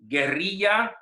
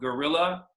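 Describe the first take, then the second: First: The word is said with Spanish pronunciation. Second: The word is said with English pronunciation. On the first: "in Spanish" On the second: "in English"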